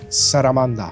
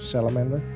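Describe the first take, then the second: First: It is said with Japanese sounds. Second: It is said with English sounds.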